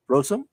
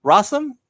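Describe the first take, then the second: First: Rossum as ROH-sum, questioning rise; alternative pronunciation. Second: Rossum as RAH-sum, pitched up questioningly; pronunciation check. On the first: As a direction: try out Rossum with a long "oh". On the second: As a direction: try out Rossum with an open "ah". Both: Shown as a demonstration. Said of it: "hope I pronounced that last name correctly".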